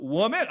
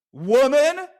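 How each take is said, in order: First: "Woman?" asked back, rising, in a surprised tone; puzzled echo. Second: High, loud spat-out "woman." with a rising end; furious shout. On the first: Real, not acted. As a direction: turn "Woman?" into a curious question. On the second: Retold or imitated. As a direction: hurl "woman." at her in rage. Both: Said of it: "Oh, that just came out".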